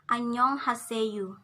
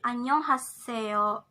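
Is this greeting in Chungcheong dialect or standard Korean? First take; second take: Chungcheong dialect; standard Korean. First: It is said in Chungcheong dialect, ending in 'yu'. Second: It is said in standard Korean. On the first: "in Chungcheong dialect you will say" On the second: "in standard language of Korean"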